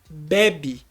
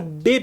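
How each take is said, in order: First: The stress is on the first syllable. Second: The stress is on the last syllable. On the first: It means someone drinks. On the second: It means a baby.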